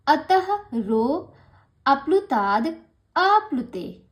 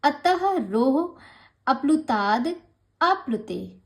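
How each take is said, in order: First: "अतः रो अप्लुताद आप्लुते" spoken slowly, word by word with pauses; syllable-by-syllable demo; split pronunciation. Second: "अतः रोह अप्लुताद आप्लुते" said slowly, each part separated by pauses; careful broken-up reading; split pronunciation. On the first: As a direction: break it apart, each word slow and loud. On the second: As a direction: teach the break-up slowly. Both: Shown as a demonstration. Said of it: "इसका उच्चारण अगर आपको करेंगे तो ऐसे ही करेंगे".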